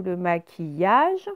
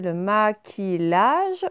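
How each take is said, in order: First: "maquillage" said ma-ki-yage; slow "maquillage", double L sounded as y; correct ye sound. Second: "maquillage" misread slowly as ma-ki-lage; slow, drawn-out "maquillage" with L, no glide; wrong L reading. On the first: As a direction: say "maquillage" with a y glide. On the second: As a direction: say "maquillage" with a hard L. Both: Shown as a demonstration. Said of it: "donc c'est bien ye".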